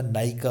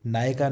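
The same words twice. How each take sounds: First: नायिका with a clear i, naa-i-kaa; correct pronunciation. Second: नायिका said as naayaka, a for i; mispronunciation demo. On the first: Teacher corrects the word, नायिका pronounced naa-i-kaa. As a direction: say नायिका with i in the middle. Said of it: "नायिका होती है". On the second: Teacher shows the common mistake, नायिका mispronounced as naayaka. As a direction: swap the i in नायिका for a short a. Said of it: "नायिका नहीं होता". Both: Shown as a demonstration.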